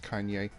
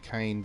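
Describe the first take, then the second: First: The name is said with a Japanese pronunciation. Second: The name is said with an English pronunciation. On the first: This is the intended original pronunciation. The speaker calls it right. "meant to be pronounced Kanye, because it is the Japanese word" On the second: This is how an English reader would read it. The speaker calls it wrong. "I just say Kane because that is me being a Western guy"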